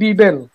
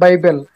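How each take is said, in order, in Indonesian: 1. Kata ini diucapkan sesuai tulisannya, Bibel. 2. Kata ini diucapkan dengan cara Inggris. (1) "langsung Bibel ya" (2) "bukan lagi diucapkan Bible"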